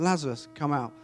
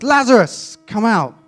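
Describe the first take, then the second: First: Said in the usual way. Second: Loud, high shout to summon someone; commanding call. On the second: Acted. Jesus calls the dead man from the tomb, loud commanding shout. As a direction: call it out at full force, pitched high.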